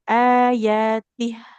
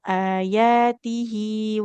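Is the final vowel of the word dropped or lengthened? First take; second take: dropped; lengthened. First: The word ends without its final vowel. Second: The final vowel is held long into the next word. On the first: The recitation stops at this word. "Kalau wakof malah jadi sukun" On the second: The recitation continues past this word. "lanjut baru panjang dua harokat"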